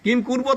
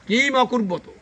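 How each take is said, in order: First: The verb begins directly with a 'k' sound. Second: An 'a' sound comes before the 'k' sound. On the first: The speaker calls it wrong. "না" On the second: The speaker calls it right. "কিন্তু"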